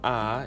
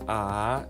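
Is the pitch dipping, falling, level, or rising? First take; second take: rising; dipping. First: The pitch rises from middle to high. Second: The pitch falls low and then rises. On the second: "inashuka, then inainuka"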